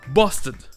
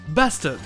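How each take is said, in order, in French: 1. Accent anglais, avec le R complètement muet. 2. Accent américain, avec le R légèrement prononcé. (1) "les Anglais par contre le prononcent ... et le R est complètement muet" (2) "Les Américains le prononcent bastard, ... et le R qui est juste un peu prononcé"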